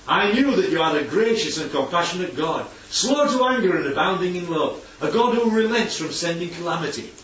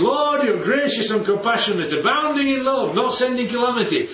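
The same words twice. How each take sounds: First: Grudging criticism. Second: Raised, lifted voice of praise to God; glad, adoring praise. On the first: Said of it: "it's the way that you say it". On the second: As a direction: say it as heartfelt worship. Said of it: "that's praise". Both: Shown as a demonstration.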